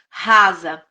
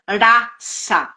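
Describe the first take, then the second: First: The middle consonant sounds like z. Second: The middle consonant sounds like s. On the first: It is the Portuguese word meaning shallow. "a gente escreve R A S A" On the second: It is the Sanskrit word meaning essence. "em sânscrito se pronuncia rasa"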